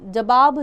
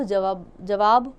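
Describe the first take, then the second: First: जवाब said louder as the wrong form, like 'जबाब'; first take of जवाब, the incorrect one; wrong pronunciation. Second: जवाब said slowly and clearly with a v sound; slow corrected take of जवाब; careful correct pronunciation. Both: Shown as a demonstration.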